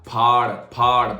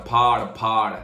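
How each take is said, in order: No difference in how they are said.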